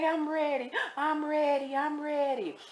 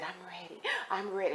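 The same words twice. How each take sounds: First: High, drawn-out mock tearful voice; imitated crying. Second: Quiet tearful retelling. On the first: Crying inmate insisting she is ready, imitated high tearful whine. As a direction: imitate her crying, pitched way up. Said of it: "She crying". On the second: Retold or imitated. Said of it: "And she crying".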